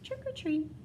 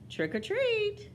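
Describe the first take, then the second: First: It is said very softly. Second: It is said a little louder.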